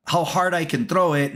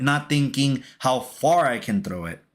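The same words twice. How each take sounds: First: "hard" leaned on as the key word; stress on "hard". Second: "far" leaned on as the contrasting word; stress on "far". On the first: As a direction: make "hard" stand out against the rest. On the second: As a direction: make "far" stand out against the rest. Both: Retold or imitated. Contrasts how hard with how far.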